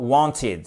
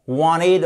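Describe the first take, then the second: First: "wanted" with a clear t, WON-tid; non-American WANTED. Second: "Wanted" as WAH-nid, t melted away; American WANTED. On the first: Teacher giving the alternative, "wanted" with a clear t. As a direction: sound the t in "wanted". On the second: Teacher comparing two accents, "Wanted" as American WAH-nid. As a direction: melt the t of "Wanted" into the n. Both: Shown as a demonstration. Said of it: "Si vous prononcez à l'américaine".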